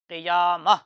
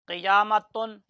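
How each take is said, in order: First: The word ends with an open a sound. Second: The word ends with the sound tun. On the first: The reader stops on the word. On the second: The word is read on without stopping.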